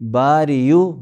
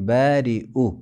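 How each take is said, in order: First: A y sound is said before the final vowel. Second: A glottal stop is said before the final vowel. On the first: The speaker calls it wrong. "बारियु नहीं" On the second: The speaker calls it right. "बारिउ हमज़ा पढ़ा जाएगा"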